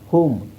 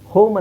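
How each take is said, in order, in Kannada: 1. ಸ್ವರ 'oo' ಶಬ್ದ ಇದೆ. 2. ಸ್ವರ 'oh' ಶಬ್ದ ಇದೆ. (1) "ಓನ ಊ ಅಂತ ಹೇಳ್ತೀವಿ" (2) "ಹೋಮ್ ಅಂತ ಹೇಳಲ್ಲ"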